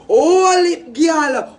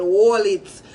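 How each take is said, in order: First: Louder repeat. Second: Said in the usual way. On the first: Acted. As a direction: Hold it called out higher and louder.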